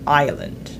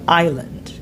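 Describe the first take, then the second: The two takes are said the same way.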